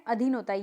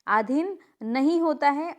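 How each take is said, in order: First: Said in the usual way. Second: नहीं lifted and slowed in "आधीन नहीं होता है"; teacher to students, stressing नहीं in "आधीन नहीं होता है". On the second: Shown as a demonstration. Teacher correcting a spelling, slow rising नहीं.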